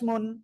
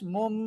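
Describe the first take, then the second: First: The syllable ends with an n sound. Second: The syllable ends with an m sound. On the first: The speaker calls it wrong. "মিম সিম্পল উচ্চারণ কি হতো" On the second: The speaker calls it right. "এটা না হয়ে মিম মিম দুই পেশ মুম"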